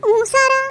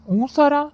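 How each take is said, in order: First: High mocking "உன் சாரா?" with Sarah pushed up; mock disbelief, pitched up; teasing. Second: "உன் சாரா?" echoed higher, Sarah stretched in mockery; sing-song mock disbelief; teasing. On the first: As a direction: rib her about her sir. Friend teases about her sir. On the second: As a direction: pile on the tease. Echoes the tease. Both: Real, not acted.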